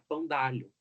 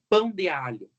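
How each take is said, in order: First: The 'de' merges into the following vowel. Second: The 'de' is a separate full syllable.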